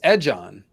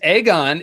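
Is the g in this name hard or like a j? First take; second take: like j; hard. First: The g is said like a j. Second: The g is said as a hard g.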